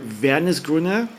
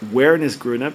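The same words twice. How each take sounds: First: It is said with a German pronunciation. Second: It is said with an English pronunciation.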